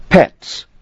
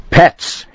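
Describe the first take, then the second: First: High, sharp indignant pets. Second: Pets hissed unvoiced and high. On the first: Acted. Angry customer reading rate. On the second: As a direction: spit out Pets in a fierce hiss. Pacing, spelling the word.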